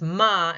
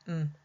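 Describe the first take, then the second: First: The consonant is followed by an added vowel. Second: The consonant is clipped with no vowel after. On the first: The speaker calls it wrong. "incorrectly pronounce it as ma" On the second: The speaker calls it right. "instead of just saying mm"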